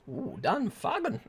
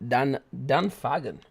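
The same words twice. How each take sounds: First: Slow, lightly accented Dan Fagan with an ooh; a hint of a put-on accent on the name. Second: Said in the usual way. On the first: Shown as a demonstration. Streamer reading out a viewer's name, light put-on accent. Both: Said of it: "Don't mean for the accent".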